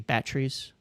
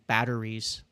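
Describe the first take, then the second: First: It is said in a South African accent. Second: It is said in a plain, non-South African accent. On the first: "you say batteries" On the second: "instead of saying batteries"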